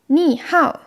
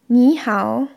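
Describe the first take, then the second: First: It is said with changed, different tones. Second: It is said with the usual greeting tones. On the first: It means mud day. The speaker calls it wrong. "sondern Ni Hao sagt, dann heißt das gleich Ni, Schlamm, und Hao, Tag" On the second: It means hello. The speaker calls it right. "Wenn man nicht Ni Hao"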